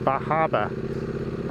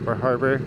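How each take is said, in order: First: The r sounds in the name are dropped. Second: The r sounds in the name are pronounced.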